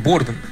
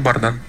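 First: The name is pronounced the English way. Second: The name is pronounced the Russian way. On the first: "по-английски, то Борден" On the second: "если они по-русски поют, то Бардан"

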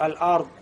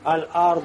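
First: The final consonant sounds like a t. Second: The final consonant keeps its full d-like sound. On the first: The speaker calls it wrong. "Как будто т получается" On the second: The speaker calls it right. "как будто, да, заглотил язык"

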